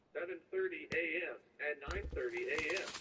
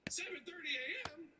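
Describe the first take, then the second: First: Even, robotic recorded message; automated voice. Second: High, disbelieving question; can't believe how early; incredulous. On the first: Retold or imitated. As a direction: read it like a phone system. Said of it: "automated voice thing". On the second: Real, not acted. Outraged at early appointment time.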